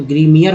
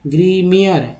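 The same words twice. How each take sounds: First: ग्रीमियर again with a clear ईयर ending; ग्रीमियर, sound out the ईयर at the end. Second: ग्रीमियर with the ending said ईयर; ग्रीमियर, end it on a clear ईयर. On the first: (ग्रीमियर में ईयर साफ़ बोलें) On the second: (ग्रीमियर का अंत ईयर जैसा बोलें) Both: Shown as a demonstration. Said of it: "I E R को ईयर बोलते हैं".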